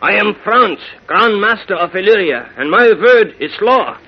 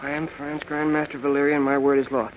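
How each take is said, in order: First: It is said in a German accent. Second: It is said in his ordinary accent.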